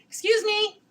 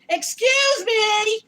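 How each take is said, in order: First: It is said at a normal, quiet volume. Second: It is said loudly and forcefully.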